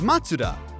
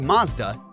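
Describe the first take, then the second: First: The middle sounds like a tsu sound. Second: The middle sounds like a z sound. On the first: The speaker calls it right. "The correct way to say Mazda is Matsuda" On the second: The speaker calls it wrong. "I know I just pronounced it wrong"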